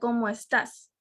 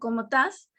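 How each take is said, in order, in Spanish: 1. Se dice en la forma estándar completa. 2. Se dice de forma casual, en un registro coloquial. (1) "lo correcto sería" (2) "solemos decir de cariño"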